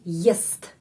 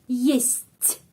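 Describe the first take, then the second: First: The final t is hard, not softened. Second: The final t is softened, close to ts. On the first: "Kalau tidak ada tanda pelemah, ... jadi есть" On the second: "T menjadi ц"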